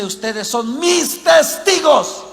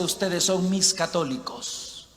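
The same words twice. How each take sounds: First: "mis testigos" raised and drawn out; stress on TESTIGOS. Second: Lower, softer, slow reading ending on "católicos"; dismissive contrast. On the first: Preacher shows what the verse says, stressing "testigos". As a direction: punch "testigos" slowly and firmly. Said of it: "Aquí dice". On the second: Preacher shows what the verse doesn't say, quiet dismissive contrast. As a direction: drop the voice low for "mis católicos". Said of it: "No dice". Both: Shown as a demonstration.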